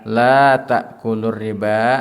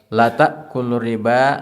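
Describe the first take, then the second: First: The vowel in 'la' is held long. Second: The vowel in 'la' is cut short. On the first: It is a prohibition: do not. The speaker calls it right. "La dua harkat" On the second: It becomes an affirmation: surely. The speaker calls it wrong. "dibaca cepat"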